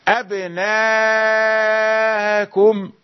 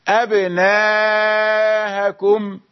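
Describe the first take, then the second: Both takes have the same delivery.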